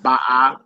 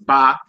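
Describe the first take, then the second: First: It is said as two syllables, ba-ah. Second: It is said as one syllable, ba. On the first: The speaker calls it wrong. "not ba ah" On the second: The speaker calls it right. "you just say ba"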